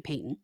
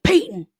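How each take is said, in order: First: Said in the usual way. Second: Higher, louder mock bellow of the name; calling out. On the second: Angry man demanding Peyton on the phone, mock yell. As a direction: imitate him demanding her by name. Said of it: "and he's like".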